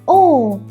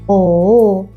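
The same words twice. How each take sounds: First: The pitch falls sharply downward. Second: The pitch dips down, then rises. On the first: "like you suddenly fall down" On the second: "like shall we?"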